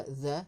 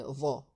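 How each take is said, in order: First: The avec un th léger et un a clair, la forme fautive; the dit sans emphase, à éviter; mauvaise prononciation. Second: The avec un th emphatique et une voyelle grave; the dit épais, langue contre les dents du haut; bonne prononciation. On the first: (the prononcé léger, langue entre les dents) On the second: (the prononcé grave et appuyé, comme modèle) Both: Shown as a demonstration. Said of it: "c'est pas the, mais the".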